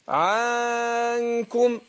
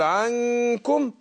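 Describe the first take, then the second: First: The first vowel is stretched long like 'aa'. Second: The first vowel is kept short. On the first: The speaker calls it wrong. "الخطا ان يقول ايه؟ ... يمط حركه الفتح" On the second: The speaker calls it right. "اقول عنكم"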